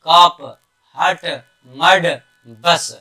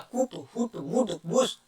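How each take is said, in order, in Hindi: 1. हर शब्द में स्वर 'uh' जैसा बोला जाता है। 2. हर शब्द में स्वर 'oo' जैसा बोला जाता है। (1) "तो इसकी आ उच्चारण पढ़ेंगे" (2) "तो ये नहीं होगा"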